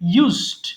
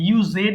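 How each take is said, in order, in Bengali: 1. শব্দটি এক সিলেবলে বলা হয়। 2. শব্দটি দুই সিলেবলে বলা হয়। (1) "আপনারা বলেন না।" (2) "কমন মিস্টেক, এখানে আমরা মাঝে মধ্যে ইউজেড বলে ফেলি"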